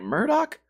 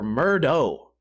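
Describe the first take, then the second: First: The name ends with a k sound. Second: The name ends with an oh sound. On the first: "there's a K at the end" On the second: "it's like a oh"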